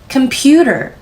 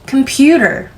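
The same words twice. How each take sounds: First: The pitch rises only slightly on the stressed syllable. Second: The same.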